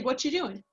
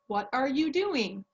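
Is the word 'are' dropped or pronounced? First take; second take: dropped; pronounced. First: The word 'are' is dropped entirely. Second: Every word is said, including 'are'. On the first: This is how people casually say it. "I say" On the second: This is the formal way taught in class. "we would maybe teach in our English class"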